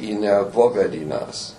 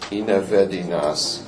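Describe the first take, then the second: First: An extra o syllable is heard before vedinas. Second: The o is dropped before vedinas. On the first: "some people could say inevovedinas" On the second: "Just say inevedinas"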